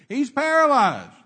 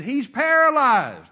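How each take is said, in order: First: Slow loud call relayed through crowd; passed-along yell. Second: Slow loud yell from far off; yelled back. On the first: People relaying the word along, slow loud call. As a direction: shout it down the line. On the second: Men yelling back to the preacher, slow loud shout. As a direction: shout it back across the crowd. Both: Retold or imitated.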